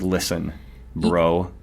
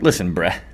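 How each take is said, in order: First: The last word has an 'oh' vowel. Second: The last word has an 'eh' vowel.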